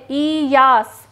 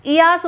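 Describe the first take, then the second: First: Yash drawn out slowly in two parts, ई then यास; slow syllable-split repeat. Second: Said in the usual way. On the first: Shown as a demonstration. Teacher repeating a new term for pupils, Yash slowly broken into syllables. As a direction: stretch the first vowel of Yash, then finish यास.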